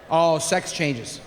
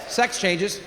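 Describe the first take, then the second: First: Slow, low "Oh, sex changes." with weight on "Oh"; knowing drawn-out repeat. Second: Said in the usual way. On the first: Shown as a demonstration. Comic telling the audience, slow knowing repeat. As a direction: drag out "Oh" like a weary confession.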